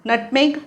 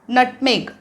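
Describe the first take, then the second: No difference in how they are said.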